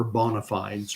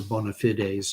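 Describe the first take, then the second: First: "bona fides" with fides as one syllable, rhyming with tides; "bona fides" ending in a long-i "fydz"; alternative pronunciation. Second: "bona fides" with fides in two syllables, fi-DAYZ; "bona fides" with a long-a final syllable; alternative pronunciation. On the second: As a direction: say "bona fides" ending like "days". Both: Shown as a demonstration. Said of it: "depending on how you want to pronounce that".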